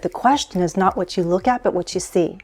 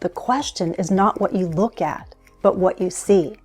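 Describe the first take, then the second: First: The quote is spoken quickly and rushed. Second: The quote is spoken slowly and deliberately. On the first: The speaker calls it wrong. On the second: The speaker calls it right.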